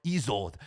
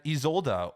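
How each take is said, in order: First: ISOLDE without the final vowel; other-language pronunciation. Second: ISOLDE with a final uh syllable; Germanic pronunciation. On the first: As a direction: say Isolde as ee-ZOLD. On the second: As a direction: say Isolde as ee-ZOL-duh. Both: Shown as a demonstration. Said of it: "depending on what language you want to pronounce it".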